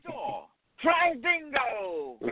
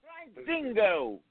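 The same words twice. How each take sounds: First: Higher and even slower, hugely stretched Aussie name; attempted Australian accent. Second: Slow, drawn-out Aussie-British name; attempted Australian accent. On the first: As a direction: spell it out by dragging each word, mock-Australian. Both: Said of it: "insane and British".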